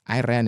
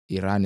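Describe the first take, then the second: First: It sounds like the phrase 'I ran'. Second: It sounds like the country name. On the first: It is the past tense of run. "Iran is past tense" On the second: It names a country. "Iran is a country"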